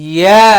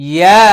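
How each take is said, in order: No difference in how they are said.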